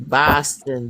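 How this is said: It is said in a Boston accent.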